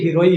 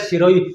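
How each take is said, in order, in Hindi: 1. यह शब्द 'h' ध्वनि से शुरू होता है। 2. यह शब्द 's' ध्वनि से शुरू होता है।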